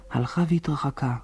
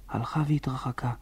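First: Said in the usual way. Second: Soft, whispery echo of the phrase; fading into the distance. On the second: A narrator's reading. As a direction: let it die away almost to a whisper. (דועך ומתרחק, כמעט בלחישה) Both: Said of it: "וצעקתה הלכה והתרחקה".

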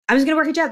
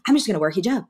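First: Repeated higher and more insistent; firm, resolved repeat; emphatic decision. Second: Said in the usual way. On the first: Retold or imitated. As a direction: declare it, pitched up.

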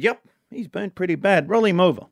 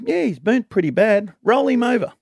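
First: Put-on Irish accent. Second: Put-on Irish accent, louder. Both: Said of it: "trying to do the Irish accent only when someone speaks".

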